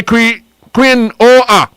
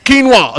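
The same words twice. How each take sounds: First: Quinoa said slowly as kwinoa, after a broken start; quinoa spelled out. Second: Quinoa said fast as kinwa, like a foreign word. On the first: Host teaching listeners how to say quinoa, slow and careful. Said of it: "Q U I". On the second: Host joking how Mary says quinoa, mock foreign kinwa. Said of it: "Like you talk Japanese". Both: Shown as a demonstration.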